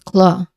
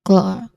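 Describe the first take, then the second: First: The final R sound is dropped. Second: The same.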